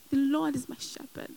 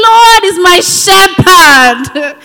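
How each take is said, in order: First: Soft, murmured "The Lord is my shepherd"; quiet affirmation. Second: Slow, loud, higher proclamation; proclaimed loudly. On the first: Believer alone in frustration, softly affirming "The Lord is my shepherd". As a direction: say "The Lord is my shepherd" almost under the breath. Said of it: "I know it's frustrating". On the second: Preacher answering the enemy, slow loud proclamation. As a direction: shout it out slowly at the enemy. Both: Pretend.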